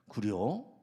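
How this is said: It sounds curious.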